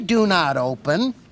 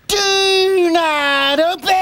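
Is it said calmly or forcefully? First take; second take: calmly; forcefully. First: It is said calmly, without force. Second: It is said forcefully, like an exclamation.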